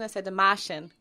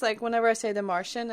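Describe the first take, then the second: First: "Martian" as "Mah-shun" in a Boston accent; Boston accent, r dropped: "Mah-shun". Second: Said in the usual way. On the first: Shown as a demonstration. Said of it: "'cause Matt Damon from Boston".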